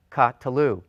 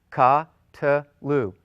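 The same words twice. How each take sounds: First: "ka-tlu" with ka set apart from tlu; syllable by syllable. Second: "ka-tlu" repeated a bit louder, ka then tlu; stressed demo. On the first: Teacher shows students how to say "ka-tlu". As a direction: say "ka-tlu" in clear parts. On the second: Teacher repeats "ka-tlu" for the class. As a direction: lean on "ka-tlu", parts distinct. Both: Shown as a demonstration. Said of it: "Three syllables".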